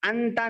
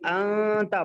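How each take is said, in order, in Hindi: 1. न को ज़बान से पूरी तरह बोला जाता है। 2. न नाक की आवाज़ में छिपा होता है। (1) "यहाँ पर अंता नहीं पढ़ेंगे" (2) "नून की आवाज़ को सिर्फ़ नाक में रखेंगे"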